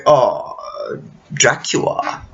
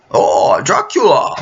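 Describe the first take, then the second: First: Hushed, whispered mock Transylvanian drawl of Dracula; half-whispered mock vampire accent. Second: Mock Transylvanian accent, the name wailed out with a cry; hammed-up crying Dracula accent. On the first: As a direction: breathe the name like a lazy vampire count. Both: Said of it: "Count Dracula's accent".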